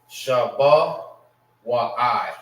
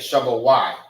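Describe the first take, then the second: First: The ending is said as two syllables, wa-i. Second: The ending is said as one syllable, wai. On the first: The speaker calls it wrong. "I mean Shabbat Y" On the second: The speaker calls it right. "it's Y"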